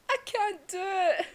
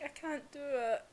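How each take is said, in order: First: High, loud, drawn-out retold refusal; Inosuke anguished. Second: Subdued retold admission; Inosuke faltering. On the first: Inosuke tearfully refusing to strike his comrade, loud anguish. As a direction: cry it out slowly, high and loud. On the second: Inosuke unable to strike his best mate, subdued. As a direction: imitate quietly giving up.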